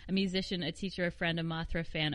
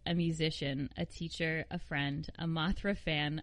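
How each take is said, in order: First: It is read fast. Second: It is read slowly.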